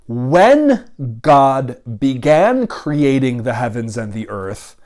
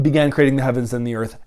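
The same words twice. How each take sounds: First: Deliberate reading. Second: Said in the usual way. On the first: Shown as a demonstration. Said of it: "So we might read, rather than".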